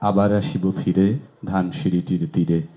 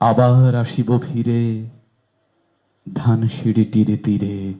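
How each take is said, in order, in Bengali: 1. স্বরধ্বনিগুলো ছোট ও ছাঁটা রাখা হয়। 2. স্বরধ্বনিগুলো টেনে লম্বা ও দীর্ঘ করা হয়। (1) "স্বরধ্বনিগুলো বাদ দিয়ে দিয়ে পড়ি" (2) "স্বরধ্বনিগুলো প্রাণ দিয়ে দিয়ে কোথাও এক মাত্রা কোথাও দুই মাত্রায় জায়গা দিয়ে পড়লে"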